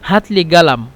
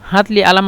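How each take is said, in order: First: The word for pen starts with a g sound. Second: The word for pen starts with a glottal stop. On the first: This is how people from Upper Egypt say it. "গালাম বলে যারা ... আহলুস সাঈদ ... কফ গয়ন বলে" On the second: This is how people in Cairo say it. "হাতলি আলাম মানে আমাকে কলম দাও"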